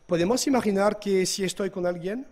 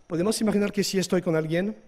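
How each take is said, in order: Both takes have the same delivery.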